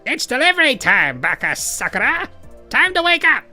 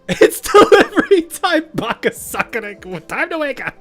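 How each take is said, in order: First: It is read in a goofy nerd voice. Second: It is read in a plain normal voice.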